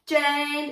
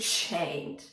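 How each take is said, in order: First: The 'ch' sound is clear but moderate. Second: The 'ch' sound is strongly exaggerated. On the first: The speaker calls it right. "Just the chained. ... it's accurate" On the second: The speaker calls it wrong. "Just don't overdo it. Don't do chained"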